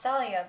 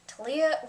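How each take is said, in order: First: The name begins with a th sound. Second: The name begins with a plain t sound. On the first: The speaker calls it right. "There's an H in there" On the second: The speaker calls it wrong. "Why in the world were they pronouncing it like Talia"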